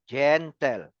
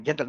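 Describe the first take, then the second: First: GEN and TEL split into two clear beats; syllable by syllable. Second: Said in the usual way. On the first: Shown as a demonstration. Teacher correcting the run-together word, said syllable by syllable. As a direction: pull the word apart as GEN, pause, TEL. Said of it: "That is two syllables". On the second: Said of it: "not gentle, no".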